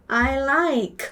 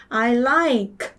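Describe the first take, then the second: Both takes have the same delivery.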